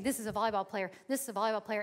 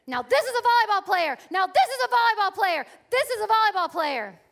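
First: Said in the usual way. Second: Loud, high shouted praise from the coach; coach shouting praise. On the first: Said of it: "Dee's voice saying". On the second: Retold or imitated. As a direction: yell it like a proud coach courtside. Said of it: "she starts to say".

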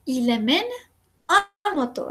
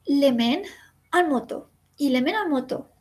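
First: Slow "il le mène", a clear break, then "en moto"; pause before en. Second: "il le mène en moto" said as one smooth flow, "mène" running into "en"; linked phrase. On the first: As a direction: stop after "mène" before saying "en moto". ("il le mène", pausa, "en moto") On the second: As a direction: chain "mène en moto" together with no gap. ("il le mène en moto" de corrido, enlazado) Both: Shown as a demonstration. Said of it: "en la segunda hay una pausa".

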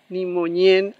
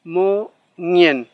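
First: Moñen with palatal ñ, the mistake; wrong ñ sound. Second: Moñen with one back nasal ng, louder; correct ng. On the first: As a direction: show moñen said with Spanish ñ. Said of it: "Hay personas que lo pronuncian como ñ". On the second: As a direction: say moñen with ng as a single sound. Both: Shown as a demonstration.

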